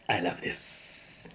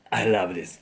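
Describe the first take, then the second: First: Slow hushed whisper. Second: Said in the usual way. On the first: Real, not acted. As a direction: breathe it out, savoring. Savoring ramen, repeats it whispered.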